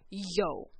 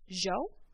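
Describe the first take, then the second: First: The word begins with a Y sound. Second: The word begins with a J sound. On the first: This is how it is usually said in Mexico. "I prefer the Y because that's what we usually say in Mexico" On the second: This is how some regional accents say it. "pronounce the Y sound like a J"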